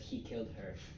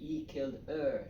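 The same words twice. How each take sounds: First: The h sounds are clearly pronounced. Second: The h sounds are dropped. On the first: The speaker calls it right. "instead of he killed her" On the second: The speaker calls it wrong. "they say he killed her"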